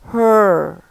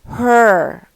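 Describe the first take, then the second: First: The final R sound is clearly pronounced. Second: The final R sound is left silent. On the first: "هنا her في R لأن الأمريكان بينطقوا ال R" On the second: "في البريتش"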